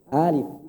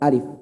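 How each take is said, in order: First: The first vowel is drawn out longer. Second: The first vowel is kept short. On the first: "alif dibaca dua harokat" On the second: "yang benar cukup alif"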